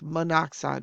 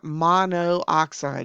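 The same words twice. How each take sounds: First: The O sound is said once, three syllables. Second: The O sound is said twice, four syllables. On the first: The speaker calls it right. "We've dropped the O from the prefix" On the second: The speaker calls it wrong. "it's not monoxide"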